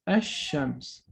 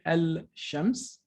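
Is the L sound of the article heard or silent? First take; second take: silent; heard. First: The L is silent and the sh is doubled. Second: The L is pronounced before the sh sound. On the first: The speaker calls it right. "it will melt the lam and we will pronounce it as ash-shams" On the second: The speaker calls it wrong. "we don't say al-shams"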